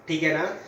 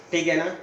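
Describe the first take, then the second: No difference in how they are said.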